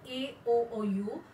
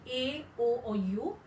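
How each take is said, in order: Both takes have the same delivery.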